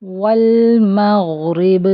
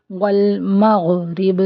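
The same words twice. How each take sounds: First: والمغرب slow, غ given a moderate running sound; والمغرب slow, measured ghain; correct recitation. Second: والمغرب with the غ run too fast, swallowed; والمغرب said quickly, غ clipped short; wrong pronunciation. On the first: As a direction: recite والمغرب slowly, غ neither clipped nor dragged. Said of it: "اس کے درمیان میں اس کو پڑھیں گے". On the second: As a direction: rush the غ in والمغرب. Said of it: "دونوں طرح سے غلط ہے". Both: Shown as a demonstration.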